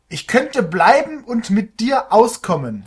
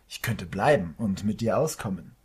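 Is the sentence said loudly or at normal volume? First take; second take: loudly; normal volume. First: The sentence is shouted loudly. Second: The sentence is said at normal volume.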